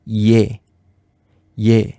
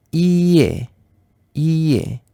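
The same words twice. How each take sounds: First: Yé in one syllable, I gliding straight into é; vowels said together. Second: Ié as a drawn-out I, then a distinct é; two separate vowels. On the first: Teacher blending two vowels for learners, said together. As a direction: say yé as one short, lower syllable. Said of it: "on prononce en même temps". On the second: Teacher splitting a Korean vowel for learners, two separate sounds. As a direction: stretch the I of ié before landing on é. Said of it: "Si on prononce en même temps". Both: Shown as a demonstration.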